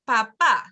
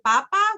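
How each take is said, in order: First: The stress is on the last syllable. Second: The stress is on the first syllable. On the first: It means father. The speaker calls it right. "You have to put the accent on the end" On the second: It means potato. The speaker calls it wrong. "papa without an accent, if you put the emphasis here, it actually means potato"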